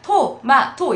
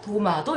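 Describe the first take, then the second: First: The word begins with a voiceless T sound. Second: The word begins with a voiced D sound. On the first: "토는 불편하니까 그냥 토마토 이렇게 발음을 사실 안 하고" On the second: "도마도 이렇게 하는 거죠"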